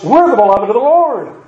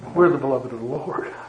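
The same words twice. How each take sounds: First: It is said in a proud, haughty tone. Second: It is said in a humble, grateful tone. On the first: We are above answering to anyone. The speaker calls it wrong. "what they said was" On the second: We are grateful for an undeserved gift. The speaker calls it right. "Instead of saying"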